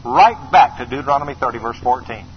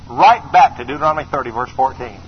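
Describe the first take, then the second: No difference in how they are said.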